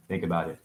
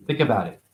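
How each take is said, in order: First: "Think about it" dropped low and soft; softer repeat. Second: Said in the usual way. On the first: Shown as a demonstration. To the audience, a hushed repeated nudge. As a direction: let it sink in, quietly.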